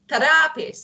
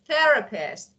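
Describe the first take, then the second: First: The stress falls on an unexpected syllable. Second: The stress falls on the expected syllable. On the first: The speaker calls it wrong. "When you emphasize in a part of words wrongly" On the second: The speaker calls it right.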